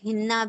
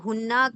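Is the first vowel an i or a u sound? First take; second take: i; u. First: The first vowel is a front i sound. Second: The first vowel is a rounded u sound. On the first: "कभी कभी जेर के साथ हिन्ना भी आ सकता है" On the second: "हुन्ना की जगह"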